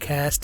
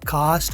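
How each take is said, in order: First: The vowel is a short flat 'a' sound. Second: The vowel is a long open 'ah' sound. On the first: "कैस्ट American है" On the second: "कास्ट British है"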